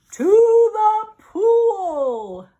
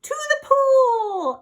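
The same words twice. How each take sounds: First: Very slow, loud yell. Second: High, loud crying yell. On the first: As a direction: bellow the answer. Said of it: "yelled the fireman". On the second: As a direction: scream it back. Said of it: "I yelled". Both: Acted.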